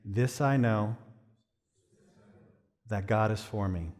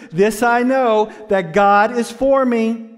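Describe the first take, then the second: First: Low, soft, unhurried calm. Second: High, loud, slow proclamation; full-force preaching shout. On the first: Shown as a demonstration. Preacher leading congregation to repeat after him, calm. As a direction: say it softly and evenly. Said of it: "in a really calm voice". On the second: Real, not acted. Preacher proclaiming the phrase to congregation, shouting. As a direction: drive each word out at full volume.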